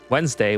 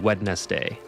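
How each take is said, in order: First: Some written sounds are dropped in the middle. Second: Every written sound is pronounced in full. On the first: This is how people commonly say it. The speaker calls it wrong. "everyone pronounces it uh Wednesday" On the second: This follows the written form. The speaker calls it right. "when it should be Wednesday"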